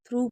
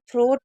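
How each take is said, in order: First: The word ends with an oo sound. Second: The word ends with a t sound. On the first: The speaker calls it right. "थ्रू पढ़ेंगे" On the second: The speaker calls it wrong. "इसको थ्रोट नहीं पढ़ेंगे"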